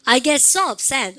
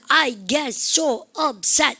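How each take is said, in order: First: Only key words are stressed, with flowing rhythm. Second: Every word gets equal heavy stress. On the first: The speaker calls it right. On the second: The speaker calls it wrong.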